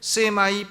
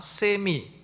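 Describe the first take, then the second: First: The word ends with an 'eye' sound. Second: The word ends with an 'ee' sound. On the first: "발음할 때 세마이라고도 하고" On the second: "세미 하면은 절반이라는 뜻이에요"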